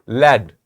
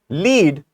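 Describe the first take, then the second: First: The vowel is short, like in bed. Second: The vowel is long, like in bead. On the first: It names a heavy metal. "First one is a heavy metal" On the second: It means to guide or show the way. "when you pronounce it differently"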